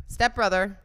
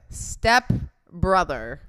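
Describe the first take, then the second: First: Said in the usual way. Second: "Step brother" slowly, each word set apart; emphatic correction. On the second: Real, not acted. Host making sure listeners remember, "Step brother" slow and emphatic. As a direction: draw out "Step", pause, then "brother".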